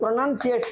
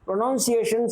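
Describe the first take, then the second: First: The second syllable sounds like 'nun'. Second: The second syllable sounds like 'noun'. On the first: The speaker calls it right. "இது ப்ரொனன்சியேஷன் தான் சொல்லணும்" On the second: The speaker calls it wrong. "சொல்லக்கூடாது"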